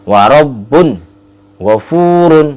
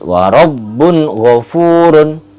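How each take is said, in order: First: The phrase is drawn out with a pause. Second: The phrase flows on with no pause. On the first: The speaker calls it wrong. "Contoh lama begini" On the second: The speaker calls it right. "tidak ada jeda"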